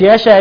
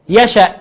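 First: It has a long a vowel instead. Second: It ends with a glottal stop. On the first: The speaker calls it wrong. "وقلناش يشاء" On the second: The speaker calls it right. "يشأ ما أبدلناش"

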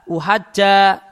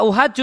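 First: The word ends with an 'a' vowel. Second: The word ends with a 'u' vowel. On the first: The word answers a command or condition. "uhaja jimnya dibaca fathah" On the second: The word describes the phrase before it. "jimnya dibaca dhammah"

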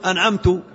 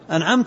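First: The word ends with a short 'u' vowel. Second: The word ends with a short 'a' vowel. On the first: The speaker is the one who bestowed the favor. The speaker calls it wrong. "إذا قال أنعمت يقصد من؟ يقصد نفسه، هذا يحيل المعنى" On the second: The one addressed is the one who bestowed the favor. The speaker calls it right. "لأن المنعم هو الله عز وجل"

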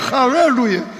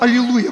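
First: The word is said in a foreign-sounding style. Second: The word is said in the ordinary Russian way. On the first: The speaker is copying a foreign preacher. The speaker calls it wrong. "Он подражает Ульфу Экману. Какое халлелуя" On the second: This is the local, natural form. The speaker calls it right. "у нас аллилуйя по-русски"

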